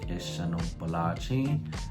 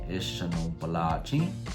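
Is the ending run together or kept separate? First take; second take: run together; run together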